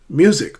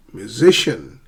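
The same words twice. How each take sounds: First: "Music" punched on MU, louder; front-stressed "Music"; first-syllable stress. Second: "musician" stressed on SI; middle-stressed "musician"; shifted stress. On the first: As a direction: hit MU and fall away in "Music". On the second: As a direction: go light on mu, land on SI in "musician". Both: Shown as a demonstration. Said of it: "How do we sh-, shift stress?".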